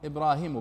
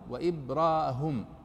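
First: The h is followed by a short i vowel. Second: The h is followed by a short u vowel. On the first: "بالكسر الهاء وليس بالياء" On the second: "بالضم"

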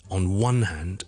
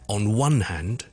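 First: The stress falls on the word one. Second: The same.

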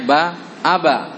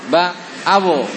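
First: The final bounce sounds like a short a. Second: The final bounce sounds like a short o. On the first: "Jangan dibaca ba aba" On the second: "atau ba abo"

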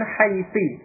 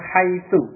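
First: The word ends with an i vowel. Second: The word ends with an u vowel. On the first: Another group of Arabs says it this way. "dengan kasrah huruf akhirnya" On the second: One group of Arabs says it this way. "Huruf akhirnya dengan dhammah"

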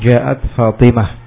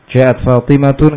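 First: The last word ends with a soft -h sound. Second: The last word ends with a -tun sound. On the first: The speaker stops at the end of the phrase. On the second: The speaker continues without stopping.

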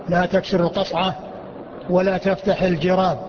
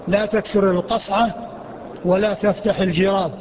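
No difference in how they are said.

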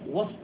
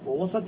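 First: The s sound has no vowel after it. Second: The s sound is followed by a short a. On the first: It is an adverb of place meaning amid. "يكون ظرفا إذا سكنت السين" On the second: It is a noun meaning a middle part. "وإذا فتحت السين لم يكن ظرفا عندهم"

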